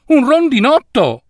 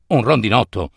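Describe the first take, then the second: First: "Un rondinotto!" said high with a stressed "un", falling; "Un rondinotto!" sung out high with a fall; high take. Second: Low take. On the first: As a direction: pitch "Un rondinotto!" up high, punch "un". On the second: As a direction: drop down low on "Un rondinotto!". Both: A narrator's reading. Takes of the same word.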